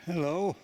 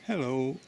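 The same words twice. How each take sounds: First: High, loud squeaky hello; squeaky raven hello. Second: Loud, higher hello to a bird; calling hello. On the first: Retold or imitated. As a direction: mimic a talking raven's greeting. It's got a funny sort of squeaky voice. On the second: Real, not acted. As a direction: call out a friendly greeting. Talking to a blooming raven here.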